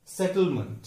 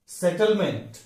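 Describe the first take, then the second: First: सेटलमेंट as "SET-l-munt", weak ending; correct pronunciation. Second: सेटलमेंट with a full "MENT"; wrong pronunciation. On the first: Teacher answering what is correct, correct pronunciation. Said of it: "लेकिन correct क्या है". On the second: Teacher showing the usual mistake, wrong pronunciation. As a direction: say set-ul-MENT with clear e. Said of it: "वो गलत हो जाता है". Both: Shown as a demonstration.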